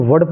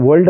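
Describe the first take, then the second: First: "वर्ड" as vud with no l; corrected "वर्ड", short vowel then d; silent L. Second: "वर्ल्ड" with l sounded before d; faulty "वर्ल्ड", l before the d; wrongly voiced L. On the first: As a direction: drop the L in "वर्ड". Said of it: "only वर्ड पढ़ना है". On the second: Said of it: "वर्ल्ड नहीं पढ़ना है". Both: Shown as a demonstration.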